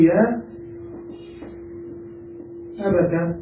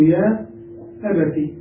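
First: "يا أبت" ending in a short -ta; fatha on ta. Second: "يا أبتي" ending in a short -ti; kasra on ta. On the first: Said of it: "والتاء تفتح". (نطق "أبت" بتاء مفتوحة) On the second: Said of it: "مفتوحة أو مكسورة". (نطق "أبتي" بتاء مكسورة) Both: Shown as a demonstration.

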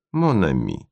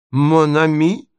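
First: Friendly. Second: High, incredulous echo; indignant, sharply rising pitch; enraged cry. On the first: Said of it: "дружески протягивая ему". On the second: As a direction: throw it back as an outraged question. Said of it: "вскричал он в бешенстве". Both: A narrator's reading.

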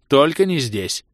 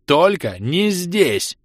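First: Said in the usual way. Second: Slower, louder, higher resolve; rising fury. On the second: Acted. Ros refuses to die here, louder and slower. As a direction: push it out through rage.

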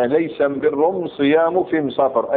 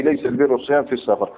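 First: Slow recital, البر pronounced am-birr with m for l; measured am-birr, am-siyam, am-safar, each article an m; Himyar article. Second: Said in the usual way. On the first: Shown as a demonstration. Teacher reciting the Himyar wording for students, slow am- articles. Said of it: "هذه أم أداة التعريف عندهم". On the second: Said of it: "أي".

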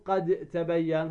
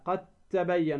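First: "قد تبين" with د sounded: "qad, tabayyan"; wrong, unmerged. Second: "قد تبين" as "qat-tabayyan"; merged pronunciation. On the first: Teacher shows students the mistake, unmerged د. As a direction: release the د of قد separately before تبين. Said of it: "هذا خطأ". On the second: Teacher models the rule, merged د into ت. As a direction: turn the د of قد into a doubled ت before تبين. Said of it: "تدغم الدال في التاء". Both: Shown as a demonstration.

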